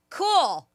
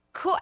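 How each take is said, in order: First: Higher, laughing cool; cool said out loud. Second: Said in the usual way. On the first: Retold or imitated. Co-host tells how she said cool out loud, laughing. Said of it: "I literally out loud went". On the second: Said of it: "And I was like".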